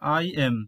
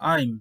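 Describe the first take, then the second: First: Two separate words are said in full. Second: The words merge into one contracted syllable. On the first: "প্রথমটি হচ্ছে আই এম" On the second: "contraction করব তখন হবে আইম"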